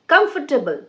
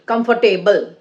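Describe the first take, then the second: First: Comfortable stressed up front, the rest light and quick; correct comfortable. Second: Comfortable in separate syllables, "come-for-TAY-bul"; mispronounced comfortable. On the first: Teacher correcting learners, "comfortable" said properly as "KUMF-tuh-bul". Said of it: "No, it's". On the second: Teacher showing learners a common mistake, mispronounced "comfortable" as "come-for-TAY-bul". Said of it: "like some people say". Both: Shown as a demonstration.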